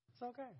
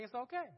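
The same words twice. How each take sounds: First: It's okay said much softer, almost hushed; soft reassurance. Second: Said in the usual way. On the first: Shown as a demonstration. Reassuring the congregation about eating in heaven, much softer.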